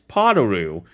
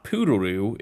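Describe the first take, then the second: First: The first syllable sounds like 'po'. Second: The first syllable sounds like 'poo'. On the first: The speaker calls it right. "it's Podaroo" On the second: The speaker calls it wrong. "I've been saying it wrong. It's not Poodaroo"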